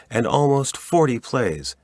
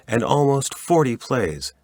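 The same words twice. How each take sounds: The two takes are said the same way.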